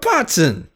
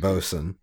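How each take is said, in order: First: The word has a t sound in the middle. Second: The word has no t sound in the middle. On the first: The speaker calls it wrong. "Is that actually how you pronounce that?" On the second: The speaker calls it right. "you actually pronounce it bosun"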